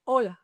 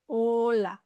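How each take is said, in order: First: Said in the usual way. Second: HOLA stretched, starting straight on a long O; drawn-out "Hola", opening on the pure vowel; silent H, slowly. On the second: Shown as a demonstration. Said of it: "the H is silent".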